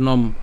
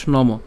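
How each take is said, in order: First: "নম" ending on a closed m, as nom; clipped final consonant in "নম", nom; half-pronounced final m. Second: "নম" as two syllables, no-mo; wrong full-vowel ending. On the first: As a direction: stop "নম" on the m with no vowel after. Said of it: "অর্থাৎ অর্ধেক উচ্চারণ হবে". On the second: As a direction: add an o after the m of "নম". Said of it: "not নম". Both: Shown as a demonstration.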